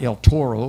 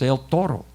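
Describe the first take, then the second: First: It is said with an American English accent. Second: It is said with a native Spanish accent. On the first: The speaker calls it wrong. "the way the gringos talk" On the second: The speaker calls it right. "it's El Toro"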